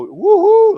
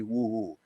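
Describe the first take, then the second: First: A high, loud cheer at every thousand; a big high whoop led from the auction stage; crowd cheer. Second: Said in the usual way. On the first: Retold or imitated. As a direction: whoop it up to rally the room. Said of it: "we go". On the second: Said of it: "pens made up that say".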